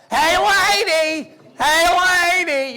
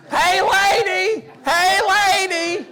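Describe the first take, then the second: First: High, loud, drawn-out goofy yell; Jerry Lewis. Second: Put-on high, loud, slow goofy yell as the child; the daughter's Jerry Lewis copy. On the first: Retold or imitated. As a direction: ham up a bad Jerry Lewis. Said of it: "this really bad imitation of Jerry Lewis". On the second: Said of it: "do her Jerry Lewis imitation".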